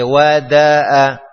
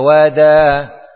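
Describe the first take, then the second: First: The glottal stop is pronounced clearly and fully. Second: The glottal stop is softened and barely heard. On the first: The speaker calls it right. "Kalau wada'a harus baca wada'a" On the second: The speaker calls it wrong. "sepertinya membaca tashil. Wada'a dibaca wada"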